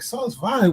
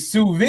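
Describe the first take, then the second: First: The first word is said like 'sauce'. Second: The first word is said like 'soo'. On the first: The speaker does not know the term. The speaker calls it wrong. "not being able to pronounce it" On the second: The speaker knows the term. The speaker calls it right. "Oh, you mean sous vide?"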